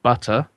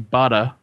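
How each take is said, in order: First: The middle T is a crisp, clear T. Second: The middle T sounds like a soft D. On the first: "pronounce your T's" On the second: "Americans have this habit of changing T's, ... to R's and D's when they fall in the middle of words"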